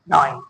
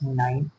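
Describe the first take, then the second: First: It is said in a deep, booming, menacing voice. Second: It is said slowly in a calm, soft voice. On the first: The counter sounds like a film villain. The speaker calls it wrong. "ऐसे भी नहीं count करना है अमरीश पुरी की आवाज में" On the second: The counter is becoming peaceful. The speaker calls it right. "अपनी breathe को काउंट करना है बहुत ही स्लोली"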